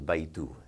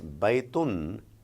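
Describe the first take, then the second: First: The word ends on a vowel, no n. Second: The word ends with an n sound. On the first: "You remove that sound and it becomes baytu" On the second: "there is a sound of noon"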